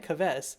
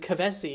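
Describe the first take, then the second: First: The name ends without a final vowel sound. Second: The name ends with a clearly sounded vowel. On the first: It sounds like a plain villain's name. "Kaves just sounds like yeah, that's a very like like I can imagine that as the name for evil dude" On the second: It sounds more powerful and intriguing. "You really went for the hard E there"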